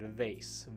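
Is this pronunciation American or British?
American. It is said with an American pronunciation. "the American way is to say it vase"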